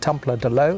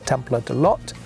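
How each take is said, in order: First: The final T sound is left silent. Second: The final T sound is clearly pronounced. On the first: The speaker calls it wrong. "so it's not" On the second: The speaker calls it right. "The French do pronounce the T at the end here"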